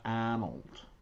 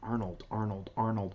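First: The R sound after the first vowel is dropped. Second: The R sound after the first vowel is pronounced. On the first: The speaker calls it wrong. "It's not Arnold" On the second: The speaker calls it right. "It's like Arnold"

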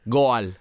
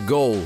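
First: The word is pronounced with Spanish sounds. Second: The word is pronounced with English sounds. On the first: "I'm going to say it the way I used to say it in Spanish" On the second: "Which translates to goal in English"

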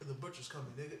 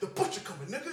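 First: The line is said with little intensity. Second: The line is said with strong intensity. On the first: "He didn't even say it in this other way" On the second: "He said it with the right intensity and everything"

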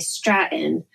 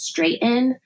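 First: The first syllable sounds like 'strat'. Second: The first syllable sounds like 'straight'. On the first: The speaker calls it wrong. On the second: The speaker calls it right.

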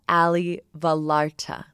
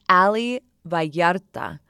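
First: The name is pronounced with English sounds. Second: The name is pronounced with Spanish sounds. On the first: This is how other people often mispronounce it. The speaker calls it wrong. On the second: This is how the owner of the name says it. The speaker calls it right.

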